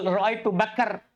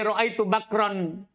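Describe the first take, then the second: First: The vowel moves forward, ending in 'kar'. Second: The last word ends with the full 'ran' sound. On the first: "Fatakulu nakal" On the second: "Coba di ro'aitu bakron"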